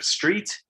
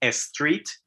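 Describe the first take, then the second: First: It is said with a standard English pronunciation. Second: It is said with a Spanish-influenced pronunciation. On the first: This is the usual English pronunciation. The speaker calls it right. "instead of street" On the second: This is how a non-native parent says it. The speaker calls it wrong. "my mom would say street"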